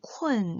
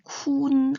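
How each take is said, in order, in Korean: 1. 마지막 'n' 앞에 'e' 같은 소리가 들려요. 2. 'u'에서 'e' 없이 바로 'n'으로 가요. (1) "아니고 쿤 이렇게 발음을 해주셔야 돼요" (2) "쿤 아니고"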